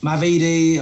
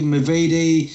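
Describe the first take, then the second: First: "Mavidi" with a clear "ma" at the start; mispronounced surname. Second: "Mavidi" with a weak muh at the start; mispronounced surname. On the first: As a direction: say "Mavidi" as MAH-vee-dee. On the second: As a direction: say "Mavidi" as muh-VEE-dee. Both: Shown as a demonstration. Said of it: "not many people get my surname right".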